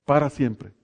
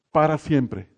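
The two takes are said the same way.

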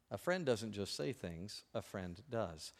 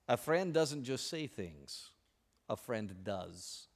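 First: Quieter, slower echo; soft repetition. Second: Slow, soft, sincere. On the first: Real, not acted. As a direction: repeat it quietly to sink in. Repeated for emphasis. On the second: Acted. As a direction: let the moral land gently. Quoted moral, slowing.

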